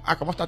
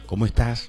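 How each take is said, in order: First: It is asked in an offhand, careless way. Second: It is asked in a sincere, caring way.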